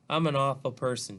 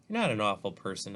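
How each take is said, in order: First: Understated tearful confession, higher and louder; mildly upset, narrated through tears. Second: Soft. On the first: Olivia confessing to Justin as he holds her, mildly tearful. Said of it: "she says through her tears". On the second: Justin comforting crying Olivia, mildly soft. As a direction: reassure her with a touch of softness. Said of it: "I say softly". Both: A narrator's reading.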